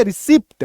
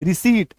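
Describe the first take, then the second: First: "रिसिप्ट" with the p sounded; common mispronunciation. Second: "रिसीट" with a silent p; correct pronunciation. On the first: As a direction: say "रिसिप्ट" with short i and an audible p before t. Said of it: "हम लोग बोलते हैं रिसिप्ट". ("रिसिप्ट" में प की आवाज़ के साथ) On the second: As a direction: say "रिसीट" with long ee straight into t. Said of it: "actual उच्चारण क्या होगा". ("रिसीट", प साइलेंट, लंबी ई) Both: Shown as a demonstration.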